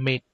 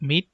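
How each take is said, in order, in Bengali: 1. স্বরধ্বনিটি 'ay'-এর মতো শোনায়। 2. স্বরধ্বনিটি 'ee'-এর মতো শোনায়। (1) "এটা এক সময় উচ্চারণ ছিল মেট" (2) "আমরা যেটাকে এখন বলি মিট"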